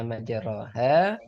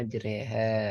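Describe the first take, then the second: First: The middle vowel is an open o sound. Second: The middle vowel is a fronted e sound. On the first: The speaker calls it wrong. "Tulisannya majroha, tapi cara bacanya" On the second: The speaker calls it right. "sekarang majreha ya"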